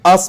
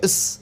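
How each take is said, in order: First: The vowel is full and clearly pronounced. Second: The vowel is reduced and weak.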